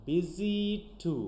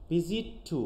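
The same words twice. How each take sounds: First: ভিজিট টু said slowly, the t sounds joined; slow demo. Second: ভিজিট টু said as one run, the t sounds merged; linked pronunciation. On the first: Teacher slowly modelling assimilation. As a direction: draw out ভিজিট টু with the sounds merged. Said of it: "এক হয়ে যাচ্ছে না". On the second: Teacher showing assimilation to the class. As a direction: blend ভিজিট into টু with no break. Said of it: "এটা আমরা একসাথে উচ্চারণ করছি". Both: Shown as a demonstration.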